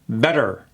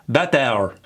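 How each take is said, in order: First: The final R follows without a separate vowel. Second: The vowel before the final R is fully sounded. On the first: The speaker calls it right. "that R kills that E and it goes right into better" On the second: The speaker calls it wrong. "they pronounce that last E"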